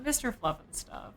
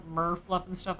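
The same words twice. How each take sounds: First: Said in the usual way. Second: "Murph" said in place of Mister; misread title. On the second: Real, not acted. Streamer stumbling over a viewer's name, misread as "Murph". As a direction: read "Murph" as one odd syllable before Fluffin' Stuff. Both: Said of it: "why I read it like that".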